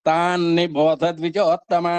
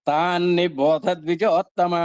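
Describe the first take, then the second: No difference in how they are said.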